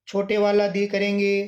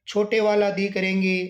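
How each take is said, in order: Both takes have the same delivery.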